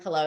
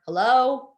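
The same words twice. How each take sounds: First: A gentle, friendly "hello"; softer hello. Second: A curt, loud, unfriendly "Hello". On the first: Answering a business call with a softer, friendly hello. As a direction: ease the "hello" out kindly. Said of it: "a bit of a softer tone". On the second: Answering the phone with an unfriendly, loud hello. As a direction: snap "Hello" at the caller like a nuisance. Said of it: "in an unfriendly tone". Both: Shown as a demonstration.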